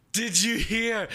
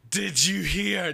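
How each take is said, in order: First: "did you hear?" much higher, punching "you"; eager stress on you. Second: "did you hear?" slow, higher, leaning on "hear"; eager stress on hear. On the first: Imitating a hyped friend, pushing on "you". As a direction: hit "you" like a buddy who can't wait. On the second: Imitating a hyped friend, stressing "hear". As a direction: drag out "hear" like a buddy bursting with news. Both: Retold or imitated.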